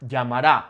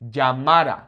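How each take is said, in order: First: Llamará stressed on the last syllable, -RÁ; future-tense final stress. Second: Llamara with a loud, punched middle syllable, -MA-; natural penultimate stress. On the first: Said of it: "That's that future tense". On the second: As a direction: lean hard on the second-to-last a of llamara. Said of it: "falls on the second to last vowel". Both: Shown as a demonstration.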